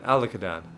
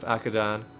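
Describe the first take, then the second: First: The name is said with four syllables. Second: The name is said with three syllables. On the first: The speaker calls it right. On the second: The speaker calls it wrong. "I've been pronouncing it wrong this, this entire time"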